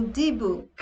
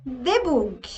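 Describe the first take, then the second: First: "debug" said dee-bug, English vowels; English "debug" with a dee at the start. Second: "Debug" read as de-boog, Portuguese vowels; Portuguese-style "Debug", de-boog. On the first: Teacher showing the correct "debug" for devs. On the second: Teacher showing the wrong "Debug" for devs. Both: Shown as a demonstration. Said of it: "ou debug".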